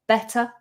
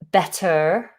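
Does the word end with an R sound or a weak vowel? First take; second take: weak vowel; R sound. First: The word ends with a weak schwa vowel. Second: The word ends with a pronounced R sound. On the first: The speaker calls it right. "we ignore that R and we do a schwa" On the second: The speaker calls it wrong. "rather than saying better"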